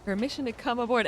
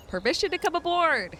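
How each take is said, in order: First: Said in the usual way. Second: Louder, higher, bellowed out; loud pirate call. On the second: Shown as a demonstration. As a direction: shout it like a pirate. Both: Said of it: "and I'm the dork? Oh, come on".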